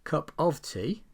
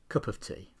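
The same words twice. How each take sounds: First: The word 'of' is said in full. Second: The word 'of' is weak and reduced.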